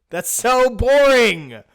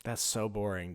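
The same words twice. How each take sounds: First: High, loud and slow groan; loud drawn-out complaint. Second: Said in the usual way. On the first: Real, not acted. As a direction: stretch out the boring, loudly.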